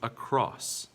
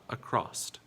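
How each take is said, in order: First: The word ends on the s sound. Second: The word ends with an added t sound. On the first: The speaker calls it right. "There is no T sound in this word" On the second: The speaker calls it wrong. "not acrossed"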